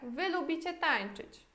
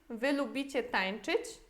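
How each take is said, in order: First: It has statement intonation. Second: It has question intonation.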